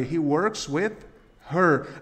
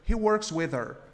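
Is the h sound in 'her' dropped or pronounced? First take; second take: pronounced; dropped. First: The h in 'her' is clearly pronounced. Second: The h in 'her' is dropped and linked.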